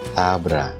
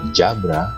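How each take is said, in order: First: The first sound is a soft th. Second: The first sound is a j. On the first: The speaker calls it right. "seolah-olah ada huruf H yang mengikutinya" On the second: The speaker calls it wrong. "atau jabra"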